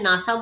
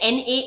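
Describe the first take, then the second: First: The letters are blended into one spoken word. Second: Each letter is said separately, one by one. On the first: "मैं नासा बोल रही हूँ" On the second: "मैं एन ए ऐसे नहीं बोल रही"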